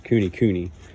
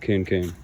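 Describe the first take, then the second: First: Each half of the name has two syllables. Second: Each half of the name has one syllable. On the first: "I like it cooney cooney" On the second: "some people have told me coon coon"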